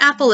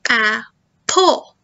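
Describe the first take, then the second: First: Said in the usual way. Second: "apple" broken into two separate beats; split into syllables. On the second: Shown as a demonstration. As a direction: say "apple" slowly, pausing between the syllables. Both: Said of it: "listen for the number of syllables".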